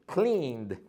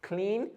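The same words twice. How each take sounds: First: Cleaned with no e, just a soft d; silent e, soft d. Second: Said in the usual way. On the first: Shown as a demonstration. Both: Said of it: "this letter is silent".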